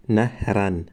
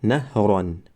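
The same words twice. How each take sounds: First: "نهرن" said with a clipped short "-an" ending; wrong tanwin ending. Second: "نهران" said with a full, clear "-an" ending; correct tanwin ending. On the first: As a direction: show "نهرن" as the mistake to avoid. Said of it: "و نه اینکه". ("نهرن" تلفظ نادرست با پایان کوتاه) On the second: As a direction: say "نهران" as the right model. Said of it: "و نه اینکه نهرن". ("نهران" با پایان روشن «ان») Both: Shown as a demonstration.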